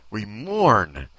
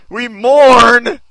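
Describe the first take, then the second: First: Said in the usual way. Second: Much louder, higher, rising on mourn; hammed-up loud mourning. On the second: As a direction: MOURN belted out high and loud. Repeats the read line, hammed up.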